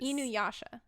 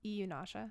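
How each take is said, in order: First: The n sound comes before the y sound. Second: The y sound comes before the n sound. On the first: The speaker calls it right. "is correct" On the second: The speaker calls it wrong. "I thought it was Iyunasha"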